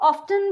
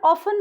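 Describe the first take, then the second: First: The t sound is pronounced. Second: The t sound is left out. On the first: "कई लोग ऑफ्टन भी बोलते हैं, but वो भी करेक्ट है" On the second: "नॉर्मली इसका प्रोनाउंसिएशन ऑफन ही होता है"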